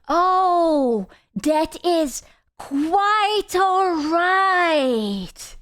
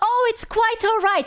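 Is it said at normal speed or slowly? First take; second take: slowly; normal. First: It is said much more slowly. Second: It is said at normal speed.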